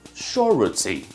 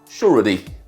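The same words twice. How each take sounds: First: It is said in a British accent. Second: It is said in an American accent. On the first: "pronounced standardly in B B C pronunciation" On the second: "In G A pronunciation, it is pronounced surety"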